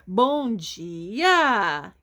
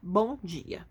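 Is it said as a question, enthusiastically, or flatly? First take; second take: question; flatly. First: It is said as a question. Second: It is said flatly, ending the topic.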